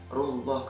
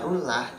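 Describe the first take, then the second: First: The L is heavy and full in the mouth. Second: The L is light and thin. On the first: The speaker calls it right. "Yang benar adalah rullah karena itu sudah termasuk bacaan lam taf tafim" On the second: The speaker calls it wrong. "Kalau dibaca rullah itu sal salah"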